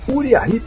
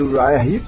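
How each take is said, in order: First: The name is read with Portuguese-style sounds. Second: The name is read with English sounds. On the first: The speaker calls it wrong. "se ouvia muito" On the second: The speaker calls it right. "no lugar de Uriah Heep"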